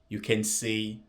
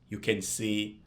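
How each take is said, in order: No difference in how they are said.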